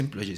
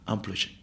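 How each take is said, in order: First: EMPLOYÉ starting with Spanish "em"; Spanish-style first vowel in "employé"; wrong pronunciation. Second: EMPLOYÉ starting with nasal "am"; softly corrected, open first vowel in "employé"; corrected French pronunciation. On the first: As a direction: say "employé" as spelled, em-plo-yé. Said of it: "no se dice employé". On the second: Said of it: "se dice employé". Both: Retold or imitated.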